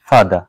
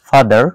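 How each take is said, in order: First: The final r sound is dropped. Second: The final r sound is pronounced. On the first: "British অ্যাকসেন্টে" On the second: "American অ্যাকসেন্টে"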